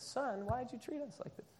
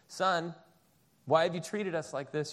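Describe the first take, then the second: First: It is said in a gentle, soft tone. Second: It is said in a stern mom voice.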